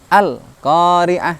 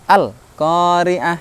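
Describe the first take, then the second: Both takes have the same delivery.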